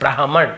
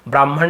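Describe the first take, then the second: First: The h sound comes before the m. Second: The h sound comes after the m. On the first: The speaker calls it right. "ब्राह्मण ऐसे होता है ना" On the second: The speaker calls it wrong. "ब्राह्मण नहीं होता"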